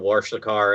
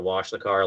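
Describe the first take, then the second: First: "wash" said as "warsh"; intrusive R. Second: Said in the usual way. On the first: Shown as a demonstration. Contrasting Midwest speech with standard, "wash" pronounced "warsh". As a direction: slip an R into "wash" before the SH. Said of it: "suddenly add an R into that". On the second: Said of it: "instead of wash the car".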